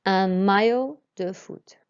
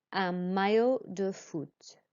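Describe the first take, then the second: First: "maillot" said ma-yo, louder. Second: "maillot" said ma-yo, slow. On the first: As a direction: repeat "maillot" with a y sound. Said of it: "And again". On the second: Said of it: "The L L makes a y sound". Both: Shown as a demonstration.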